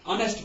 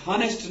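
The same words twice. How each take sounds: First: ऑनेस्ट with no h, starting on the vowel; silent h. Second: हॉनेस्ट with a sounded h at the start; wrong h pronunciation. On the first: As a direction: say ऑनेस्ट as on-est, h dropped. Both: Shown as a demonstration. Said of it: "एच हॉनेस्ट नहीं पढ़ते".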